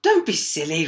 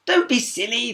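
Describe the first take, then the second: First: Louder princess retort. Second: Higher, louder princess; princess calling back. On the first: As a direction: snap back at the frog. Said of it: "retorted the princess". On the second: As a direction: toss it over the shoulder. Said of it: "the princess called back". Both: A narrator's reading.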